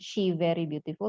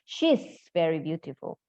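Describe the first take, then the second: First: The s sound after 'she' is dropped. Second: The s sound after 'she' is clearly heard. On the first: The speaker calls it wrong. "nggak kedengeran isnya" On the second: The speaker calls it right. "pengucapannya kedengeran"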